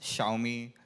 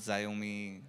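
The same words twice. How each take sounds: First: The name sounds like the words 'show me'. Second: The name does not sound like 'show me'. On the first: The speaker calls it right. "that's Xiaomi" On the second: The speaker calls it wrong. "not Xiaomi"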